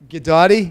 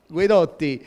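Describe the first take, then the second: First: It is said without an Italian accent. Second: It is said with an Italian accent.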